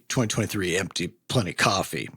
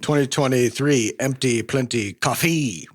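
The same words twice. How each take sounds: First: The stress in coffee is on the first syllable. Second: The stress in coffee is on the second syllable. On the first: "the emphasis coffee. is on the cough" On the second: "you can put the emphasis wherever you want"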